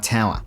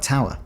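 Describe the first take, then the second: First: Brisbane-accented "Tower"; Brisbane Australian. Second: Adelaide-accented "Tower", nearer British; Adelaide Australian. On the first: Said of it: "many people in Brisbane are like". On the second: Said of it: "but that was like". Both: Shown as a demonstration.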